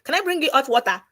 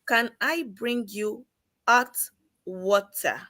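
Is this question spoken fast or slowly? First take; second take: fast; slowly. First: The question is spoken quickly. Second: The question is spoken slowly. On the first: The listener cannot understand it. The speaker calls it wrong. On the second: The listener can follow it. The speaker calls it right.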